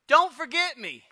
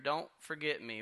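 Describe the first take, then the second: First: It is said in a desperate, pleading tone. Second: It is said in a calm, confident tone. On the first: He fears he will be abandoned. The speaker calls it wrong. "But that's not how he's saying it" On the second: He trusts that things will work out. The speaker calls it right. "He's got faith, and he says to the cupbearer"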